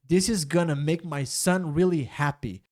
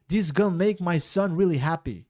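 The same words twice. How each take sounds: First: The sentence is said slowly and clearly. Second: The sentence is said quickly with syllables run together.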